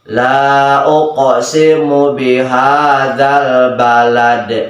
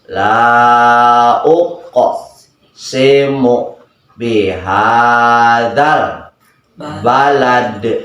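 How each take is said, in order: First: The phrase is read quickly. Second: The phrase is read slowly. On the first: The speaker calls it right. "Alang cepetin" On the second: The speaker calls it wrong. "oh lambat nggak bisa"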